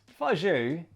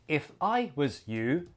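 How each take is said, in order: First: The words run together in one smooth chunk. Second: Each word is said separately and flatly. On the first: The speaker calls it right. "that sounds very different" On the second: The speaker calls it wrong. "like a robot"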